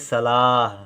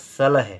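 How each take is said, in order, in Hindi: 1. दूसरे अक्षर में लंबा स्वर है। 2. दूसरे अक्षर में छोटा स्वर है। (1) "ला देर तक बोला जा रहा है" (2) "अब इनको ऐसे ही पढ़ देंगे तो ये हो जाएगा सलह"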